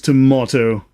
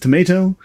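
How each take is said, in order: First: It is said with a British accent. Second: It is said with an American accent.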